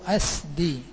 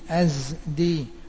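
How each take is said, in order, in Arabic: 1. الصامت الأوسط هو صوت السين المهموس. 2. الصامت الأوسط هو صوت الزاي المجهور. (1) "وبالسين" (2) "بالزاي"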